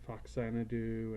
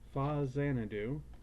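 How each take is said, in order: First: The name begins with a 'fox' sound. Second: The name begins with a 'fa' sound. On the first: The speaker calls it wrong. "I've heard it called Foxanadu" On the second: The speaker calls it right. "that's the actual pronunciation"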